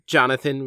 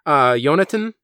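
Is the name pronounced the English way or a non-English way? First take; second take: English; non-English. First: The name is pronounced in the English way. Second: The name is pronounced in a non-English way.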